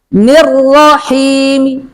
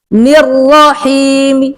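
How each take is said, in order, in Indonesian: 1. Vokal akhir hanya diucapkan samar, sebagian bersuara. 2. Vokal akhir hanya diucapkan samar, sebagian bersuara.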